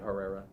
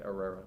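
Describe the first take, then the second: First: The name begins with a sounded H. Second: The name begins without any H sound. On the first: Other people say it this way. The speaker calls it wrong. "people would say Herrera" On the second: It keeps the name true to its origin. The speaker calls it right. "just say Herrera, like no H"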